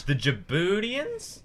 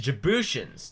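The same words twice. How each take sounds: First: "Djiboutians" said "juh-BOO-dee-ans", with a d and a slow rising question; first unsure try at "Djiboutians" as "boo-dee-ans"; wrong pronunciation. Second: "Djiboutians" said "ji-BOO-shuns", with a sh sound and a settled fall; getting "Djiboutians" right after being corrected; corrected pronunciation. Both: Shown as a demonstration. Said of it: "That's way better".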